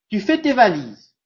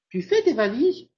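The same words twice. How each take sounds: First: The voice falls at the end. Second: The voice rises at the end. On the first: It gives an order. "elle a plutôt une intonation descendante" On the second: It asks a question. "je suis en train de poser une question"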